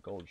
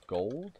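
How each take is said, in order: First: Said in the usual way. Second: Gold? with a rising tune; questioning. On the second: Real, not acted. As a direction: ask Gold? high and rising.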